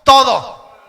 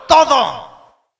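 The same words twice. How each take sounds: First: Loud call-and-response. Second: TODO shouted full force; now really shout it; louder shout. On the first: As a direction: shout TODO for the crowd to repeat. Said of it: "diga conmigo". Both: Shown as a demonstration.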